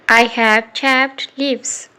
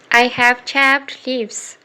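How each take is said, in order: Both takes have the same delivery.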